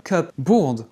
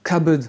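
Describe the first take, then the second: First: CUPBOARD as two full words, "cup board"; word split in parts. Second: CUPBOARD as "kubbud", p silent; English pronunciation. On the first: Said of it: "on voit bien comment c'est construit". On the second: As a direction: say cupboard reduced to two short syllables. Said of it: "Ça se prononce". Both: Shown as a demonstration.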